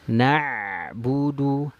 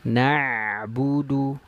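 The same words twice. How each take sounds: The two takes are said the same way.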